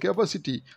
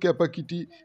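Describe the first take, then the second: First: The third consonant is an s sound. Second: The third consonant is a k sound. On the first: The speaker calls it right. "ক্যাপাসিটি হবে" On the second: The speaker calls it wrong. "সে বলে কিনা এটা ওর ক্যাপাকিটি"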